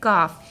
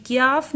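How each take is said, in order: First: "काफ" with plain k straight into long aa; correct letter name. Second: "क्याफ" with a y glide after k; wrong letter name. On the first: Teacher correcting pupils, "काफ" with a clean k. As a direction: say "काफ" as "kaaf", no y glide. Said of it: "ये है". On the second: Teacher showing pupils a mistake, "क्याफ" with an added y. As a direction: say "क्याफ" as "kyaaf". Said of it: "ये क्याफ नहीं है". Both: Shown as a demonstration.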